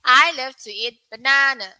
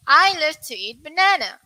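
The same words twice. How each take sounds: First: American pronunciation. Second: British pronunciation. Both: Shown as a demonstration. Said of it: "U K and U S".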